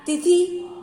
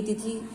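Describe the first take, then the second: First: तिथि as the faulty form, higher and slow; wrong pronunciation. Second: Said in the usual way. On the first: Shown as a demonstration. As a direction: sound out the misspelt तिथि, pitched up. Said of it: "अशुद्ध है". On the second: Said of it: "ये तिथि right है".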